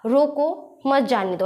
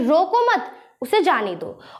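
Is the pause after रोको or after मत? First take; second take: after रोको; after मत. First: The pause comes after रोको. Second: The pause comes after मत.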